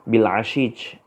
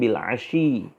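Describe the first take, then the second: First: The word ends with a j sound. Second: The word ends with a y sound. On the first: This is the Aja'ajah dialect form. "Ashi diganti dengan Ashij" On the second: This is the standard form. "harusnya Ashi"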